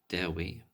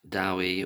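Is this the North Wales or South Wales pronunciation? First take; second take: North Wales; South Wales. First: It is said the North Wales way, like Dewi. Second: It is said the South Wales way, like Dowie.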